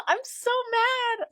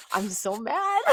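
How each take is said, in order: First: "I'm so mad" in a very high, slow, cartoonish squeak after a laugh; squeaky mock whine. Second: Mildly annoyed. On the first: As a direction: squeal "I'm so mad" like a tantrum, tongue in cheek. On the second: Real, not acted.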